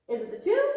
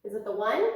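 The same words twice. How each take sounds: First: High squeaky question; teasing high voice asking. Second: Said in the usual way. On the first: Shown as a demonstration. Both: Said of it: "What's my mistake".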